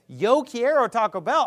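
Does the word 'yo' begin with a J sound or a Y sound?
Y sound. The first word begins with a Y sound. "what they would do in Mexico as a Y sound"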